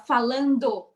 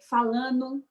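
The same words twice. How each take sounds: First: The full 'do' ending is clearly pronounced. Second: The final 'do' ending is clipped off. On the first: The speaker calls it right. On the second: The speaker calls it wrong.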